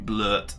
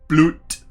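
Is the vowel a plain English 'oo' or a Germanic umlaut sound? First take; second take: umlaut; plain oo. First: The vowel is a Germanic-style umlaut sound. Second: The vowel is a plain English 'oo' sound. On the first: "more Germanic slash Norwegian kind of pronunciation" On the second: "I think it's Bloot"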